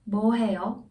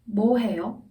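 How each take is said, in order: First: The stress falls on the question word. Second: The stress falls on the question word.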